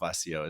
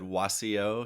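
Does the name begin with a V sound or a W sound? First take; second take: V sound; W sound. First: The name begins with a V sound. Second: The name begins with a W sound. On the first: The speaker calls it right. "Vasio is the right way to say it" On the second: The speaker calls it wrong. "I originally said Wasio"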